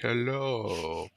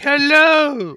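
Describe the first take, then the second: First: The word is said in a low-pitched voice. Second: The word is said in a high-pitched voice. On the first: "or low English like hello" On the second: "You can either be high English like hello"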